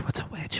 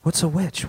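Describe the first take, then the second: First: Whispered. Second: Said in the usual way. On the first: Acted. A townsman whispering What's a witch in the crowd.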